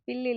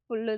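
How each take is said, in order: First: The first vowel sounds like 'i'. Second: The first vowel sounds like 'u'. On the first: This is the casual spoken form. The speaker calls it wrong. "பேச்சு வழக்கில் அப்படியே பில்லு பில்லுன்னு சொல்கிறோம்" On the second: This is the proper form. The speaker calls it right. "ஆனால் புல்லு தான்"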